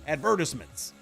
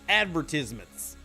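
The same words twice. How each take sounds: First: It is said in a British accent. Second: It is said in an American accent.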